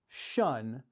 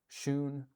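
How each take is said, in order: First: The vowel rhymes with fun. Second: The vowel rhymes with moon. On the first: The speaker calls it wrong. "I said shun like fun" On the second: The speaker calls it right. "Shoon like moon"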